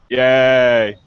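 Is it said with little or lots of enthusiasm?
little. It is said flatly, without enthusiasm.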